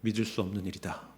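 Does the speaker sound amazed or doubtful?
doubtful. It sounds doubtful and skeptical. This cannot really be true. "나중에는"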